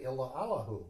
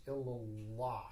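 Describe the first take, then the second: First: "illa Allahu" as separate words, with a gap before Allahu; wrong split pronunciation. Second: "illallah" slow, with the two L's held long and joined; double L run together. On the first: Teacher showing students the wrong way, "illa Allahu" split apart. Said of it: "Please do not say". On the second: Teacher correcting students, "illallah" slow with a long double L. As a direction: lean into the doubled L of "illallah", slowly. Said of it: "important to emphasize those two L's". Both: Shown as a demonstration.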